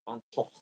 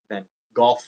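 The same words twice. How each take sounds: First: The name is said the Dutch way. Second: The name is said the British way. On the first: "I like to say it the way the Dutch people" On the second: "as the British people like to call him"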